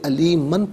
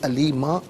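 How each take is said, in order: First: The word ends with an n sound. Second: The word ends with a long vowel. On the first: The reading continues without stopping. "इसे अलीमन पढ़ेंगे" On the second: The reader stops at this word. "वक्फ की सूरत में इसे अलीमा पढ़ा जाएगा"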